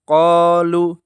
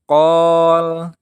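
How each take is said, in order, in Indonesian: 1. Huruf vokal terakhir hanya dibaca sebentar. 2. Huruf vokal terakhir dihilangkan setelah huruf l. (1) "yang salah qalu, lu-nya dibaca pendek" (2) "Yang salah itu qol, lamnya dibaca sukun"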